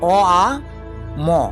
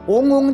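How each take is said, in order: First: It is drawn out slowly through separate vowel sounds. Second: It is said as one short clipped syllable. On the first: The speaker calls it right. "সেটা আমি তোমাদেরকে দেখাচ্ছি" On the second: The speaker calls it wrong. "ওং কথাটা কিন্তু ঠিক নয়"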